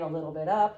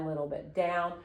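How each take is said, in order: First: "up" lifted at the end; going up. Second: "down" dropped at the end; going down. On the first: Teacher demonstrating question tune, slight rise on "up". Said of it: "a question might go straight line". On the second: Teacher demonstrating question tune, slight fall on "down". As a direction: let "down" sink slightly. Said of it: "or a straight line". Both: Shown as a demonstration.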